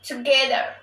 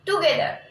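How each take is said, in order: First: The first vowel is reduced and weak. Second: The first vowel is a full o sound. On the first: The speaker calls it right. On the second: The speaker calls it wrong. "Don't say"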